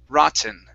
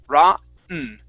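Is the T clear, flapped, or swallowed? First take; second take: clear; swallowed. First: The T is a clear, released stop. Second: The T is swallowed before the N. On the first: "this is the normal way" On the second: "the other way would be"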